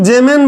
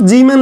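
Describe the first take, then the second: First: जेमेन with "ay" in the first syllable; variant with "je". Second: जीमेन with a long "ee" in the first syllable; Zeeman with "jee". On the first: Teacher noting how some people say it, जेमेन opening on "jay". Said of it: "कुछ लोग जेमेन बोलते हैं". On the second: Teacher telling students what to write, जीमेन opening on "jee". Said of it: "आप जीमेन लिखो". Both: Shown as a demonstration.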